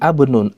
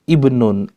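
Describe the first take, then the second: First: The word begins with an a vowel. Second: The word begins with an i vowel. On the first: The speaker calls it wrong. "bukan abnun" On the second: The speaker calls it right. "bacalah hamzatul wasl di situ dengan harokat kas kasroh"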